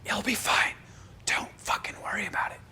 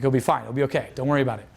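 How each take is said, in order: First: High, forced stage whisper; hissed, emphatic mock reassurance; yelled whisper. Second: Said in the usual way. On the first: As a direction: whisper it as if yelling, a bit sarcastic. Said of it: "I'm, like, yelling, whispering". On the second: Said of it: "I'm still, like, whispering it".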